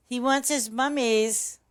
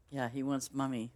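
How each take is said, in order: First: Put-on high, loud, slow cooing baby voice; baby talk. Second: Said in the usual way. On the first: Streamer to her meowing cat, sing-song baby talk. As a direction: coo it like talking to a baby.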